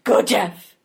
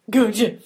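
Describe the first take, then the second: First: Whispered cheer. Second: Said in the usual way. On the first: Acted. Cheering someone on.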